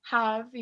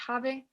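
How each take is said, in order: First: "have" as one syllable, final e silent; correct pronunciation of have. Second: "have" read Spanish-style as ha-ve, two syllables; wrong pronunciation of have. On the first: Teacher models the word for students, "have" with silent e. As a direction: say "have" the English way, ending on the v. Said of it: "no se pronuncia la E al final". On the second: Teacher warns students how not to say it, "have" with e sounded. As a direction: sound the final e in "have", like ha-beh. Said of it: "no se dice have". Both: Shown as a demonstration.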